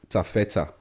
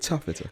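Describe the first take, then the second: First: It is said with Yoruba sounds and syllables. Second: It is said like the English fabric word. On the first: It is a shortened Yoruba phrase. The speaker calls it right. "but then it's pronounced Taffeta" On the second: Others take it for the fabric name. The speaker calls it wrong. "you're like, oh, your gallery Taffeta"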